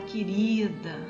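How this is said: It is said with warm, loving affection. The speaker genuinely loves the person. "é aquela coisa sentida com amor"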